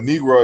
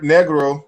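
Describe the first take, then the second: First: The word is pronounced the English way. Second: The word is pronounced the French way. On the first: This is how English speakers say it. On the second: This is the original term's own form.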